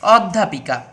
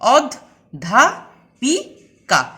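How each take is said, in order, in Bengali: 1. শব্দটি এক ঝোঁকে সাবলীলভাবে বলা হয়। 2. শব্দটি চারটি আলাদা দলে ভাগ হয়।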